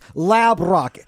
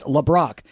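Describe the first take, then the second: First: The first syllable is a full 'lab'. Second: The first syllable has a weak 'luh' vowel. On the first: The speaker calls it right. "It's not. It's Lab Rock" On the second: The speaker calls it wrong. "People keep pronouncing it LeBrock"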